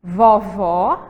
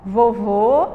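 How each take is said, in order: First: VOVÓ with an open final ó; som aberto do Ó. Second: VOVÔ with a closed final ô; som fechado do Ô. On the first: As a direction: say vovó with open o sounds, stressing the last syllable. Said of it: "o acento é diferente". (vovó com ó aberto e final tônico) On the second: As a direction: say vovô with rounded closed o sounds, final syllable held. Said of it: "ele vai poder variar". (vovô com ô fechado e final sustentado) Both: Shown as a demonstration.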